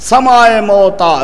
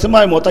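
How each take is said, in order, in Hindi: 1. पहला शब्द 'sa' अक्षर से शुरू होता है। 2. पहला शब्द 'si' अक्षर से शुरू होता है। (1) "असल में लफ्ज़ क्या है" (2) "ये आम तौर पे लफ्ज़ बोला जाता है"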